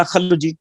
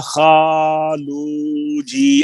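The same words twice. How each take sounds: First: خلو جی with the first vowel cut short, a quick kha; clipped khalu. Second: خالو جی with the aa stretched far too long, slow; overlong khaalu. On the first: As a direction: say خلو جی with a short a, wrong on purpose. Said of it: "کبھی کسی نے نہیں کہا". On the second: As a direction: drag out the aa in خالو جی, wrong on purpose. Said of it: "یا کبھی کسی نے نہیں کہا". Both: Shown as a demonstration.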